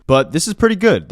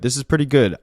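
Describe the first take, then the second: First: First take punched up with delight; excited praise. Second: Said in the usual way. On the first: Real, not acted. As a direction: gush about the song. Raving about favorite song.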